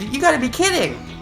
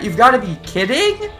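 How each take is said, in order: First: It is said as a falling exclamation. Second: It is said as a rising question.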